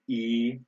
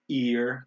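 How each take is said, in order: First: The R is dropped and the vowel lengthened. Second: The R sound is clearly pronounced. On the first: "They say e. Just just make it longer" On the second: "we say ear"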